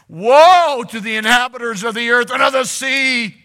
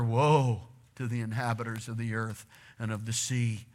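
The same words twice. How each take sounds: First: It is read with forceful, exclaiming emphasis. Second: It is read in a flat, plain tone.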